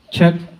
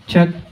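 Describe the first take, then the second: Both takes have the same delivery.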